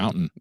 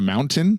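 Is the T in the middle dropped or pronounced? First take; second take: dropped; pronounced. First: The middle T sound is dropped. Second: The middle T sound is clearly pronounced. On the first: This shows the speaker is from Utah. "We don't say T's" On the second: This is how people outside Utah say it. "instead of"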